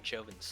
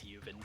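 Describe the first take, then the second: First: The name begins with a J sound. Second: The name begins with a Y sound. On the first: The speaker calls it wrong. "said it the American way with Joven" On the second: The speaker calls it right. "he has stated that it's Yuven"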